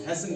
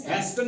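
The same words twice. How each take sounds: First: हैसन with S straight into the last syllable; silent T. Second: हेस्टन with an audible T before N; T pronounced. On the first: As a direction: drop the T in हैसन. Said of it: "हैसन पढ़ते हैं". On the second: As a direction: sound the T in हेस्टन. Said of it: "नहीं पढ़ते हैं इसको". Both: Shown as a demonstration.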